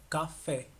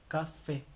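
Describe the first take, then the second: No difference in how they are said.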